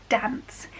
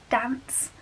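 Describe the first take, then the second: No difference in how they are said.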